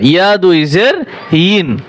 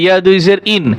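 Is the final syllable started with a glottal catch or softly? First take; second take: softly; glottal catch. First: The final syllable starts softly, without a catch. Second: The final syllable starts with a hard glottal catch. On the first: The speaker calls it right. "হামজার মতো শক্ত করা যাবে না" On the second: The speaker calls it wrong. "অনেকে হামজার মনে উচ্চারণ করে"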